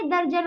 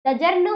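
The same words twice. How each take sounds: First: दर्जन as "dar-jan", r closing the first syllable; correct pronunciation. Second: दजर्न as "da-jarn", r moved after the j, higher voice; wrong pronunciation. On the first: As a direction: give the right reading दर्जन, r before j. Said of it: "दजर्न होता है". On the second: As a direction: show the misreading दजर्न, r at the end. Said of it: "दर्जन होता है". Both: Shown as a demonstration.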